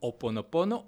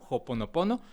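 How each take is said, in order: First: The word starts directly with a vowel sound. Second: The word starts with a breathy J-like sound. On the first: "podemos utilizar la H muda" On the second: "le ponen como un tipo J al principio"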